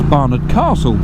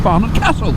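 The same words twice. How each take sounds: First: It is said with a southern English accent. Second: It is said with a northern English accent. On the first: "if you're from down south, which I am, it's Barnard Castle" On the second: "my vowels have sharpened to the northern way of speaking"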